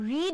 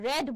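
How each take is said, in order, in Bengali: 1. স্বরধ্বনিটি দীর্ঘ, 'need' শব্দের মতো। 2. স্বরধ্বনিটি হ্রস্ব, 'bed' শব্দের মতো।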